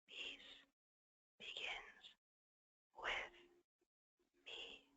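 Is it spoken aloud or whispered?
whispered. It is whispered without full voice.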